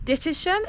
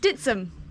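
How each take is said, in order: First: The name is said with three syllables. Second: The name is said with two syllables. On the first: This is how an outsider reads the name. The speaker calls it wrong. "Is that how you pronounce it?" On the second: This is how local people say the name. The speaker calls it right. "Ditsham to the locals"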